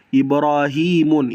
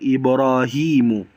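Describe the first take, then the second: First: The word ends with an n sound. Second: The word ends with a plain vowel. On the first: The speaker calls it wrong. "itu salah" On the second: The speaker calls it right. "yang benar"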